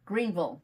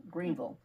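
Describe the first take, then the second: First: Said in the usual way. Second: Greenville with the bill swallowed to a bare vl. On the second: Shown as a demonstration. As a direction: clip Greenville to Green-vl, the way locals say it. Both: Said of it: "You gotta swallow the bill".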